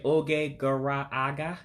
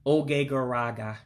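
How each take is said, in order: First: Oge gara aga with gara and aga separate; both vowels kept. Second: Oge gara aga flowing as oh-gay guh-RAH-gah; run together. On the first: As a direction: sound both a's between gara and aga. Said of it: "if you say oge gara aga". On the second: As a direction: merge gara aga into garaga. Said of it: "way the average person would say it". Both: Shown as a demonstration.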